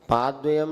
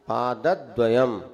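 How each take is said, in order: First: The syllable before the cluster is not stressed. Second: The syllable before the cluster is stressed. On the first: The speaker calls it wrong. "पादद्वयम नहीं" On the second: The speaker calls it right. "ऐसा बोलना"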